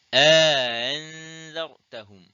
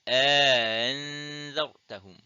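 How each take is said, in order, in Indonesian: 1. Hamzah glotal kedua dilunakkan dan diringankan. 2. Hamzah glotal kedua dilunakkan dan diringankan.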